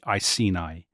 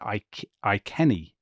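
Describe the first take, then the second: First: The first syllable sounds like 'ice'. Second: The first syllable sounds like 'ike'. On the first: This is the usual English way of saying it. "when I did this at school, I was always told" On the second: This is the more correct way of saying it. "you pronounced it Ike- Iceni"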